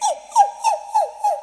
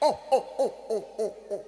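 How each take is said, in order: First: It is said in a high, thin voice. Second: It is said in a deep, thick voice. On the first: "মেম সরু সরু গলায়" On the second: "সাহেব মোটা মোটা গলায়"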